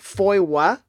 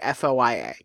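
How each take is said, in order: First: It is one word with a W sound inside. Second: Each letter is said separately. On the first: "with a sort of like W" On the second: "only refer to it by its initials"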